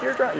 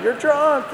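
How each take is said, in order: First: High mock mother, softer on the repeat; the repeat trails off quieter; shrieking mom, fading. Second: Much higher, mock scolding mother; shrieking mom. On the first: Mom repeats, smacking him. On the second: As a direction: screech it like a furious mom hitting him. Mom wakes him, smacking him.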